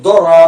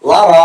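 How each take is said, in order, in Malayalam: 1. ഇത് സാധാരണ ദ ശബ്ദത്തോടെ തുടങ്ങുന്നു. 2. ഇത് സാധാരണ ലാം ശബ്ദത്തോടെ തുടങ്ങുന്നു. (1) "അല്ലെ ദൊറ എന്നറിയും, ഇത് മൂന്നും അല്ല" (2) "ലറ എന്ന് വായിക്കരുത്"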